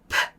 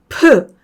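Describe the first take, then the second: First: Only a faint vowel follows the consonant. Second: A full vowel sound follows the consonant. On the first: The speaker calls it right. "으를 약하게 해주면 프" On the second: The speaker calls it wrong. "한국어의 피읍하고 비슷하니까 프"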